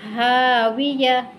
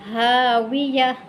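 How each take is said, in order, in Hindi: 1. शब्द एक हल्की, साइलेंट 'h' से खत्म होता है। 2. शब्द एक हल्की, साइलेंट 'h' से खत्म होता है।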